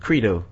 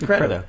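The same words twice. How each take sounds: First: The first vowel is a long 'ee' sound. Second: The first vowel is a short 'e' sound. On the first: "Which should be C-R-E-E-D-O" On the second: "C-R-E-D-O should be credo"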